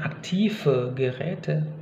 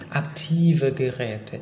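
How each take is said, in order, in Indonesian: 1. Konsonan dalam aktive adalah f tak bersuara. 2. Konsonan dalam aktive adalah v bersuara. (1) "Jadi bukan" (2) "dia akan kembali ke pelafalan V"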